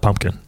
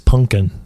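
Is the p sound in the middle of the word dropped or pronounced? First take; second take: pronounced; dropped. First: The middle p sound is pronounced. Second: The middle p sound is dropped. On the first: The speaker calls it wrong. "not pumpkin" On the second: The speaker calls it right. "pumpkin without a P, it's pumpkin"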